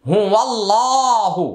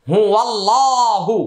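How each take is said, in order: Both takes have the same delivery.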